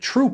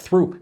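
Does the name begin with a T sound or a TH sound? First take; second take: T sound; TH sound. First: The name begins with a plain T sound. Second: The name begins with a TH sound. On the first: The speaker calls it right. "You say it Troop" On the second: The speaker calls it wrong. "You would think it's uh"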